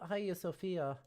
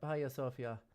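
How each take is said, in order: First: The stress is on the second-to-last syllable. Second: The stress is on the first syllable. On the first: "second to last syllable" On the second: "first syllable"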